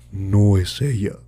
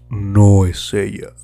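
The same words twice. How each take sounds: First: A put-on deep voice that cracks mid-phrase. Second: A put-on deep voice that stays steady throughout. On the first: The speaker calls it wrong. "se me fue un gallo" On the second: The speaker calls it right. "Otra vez"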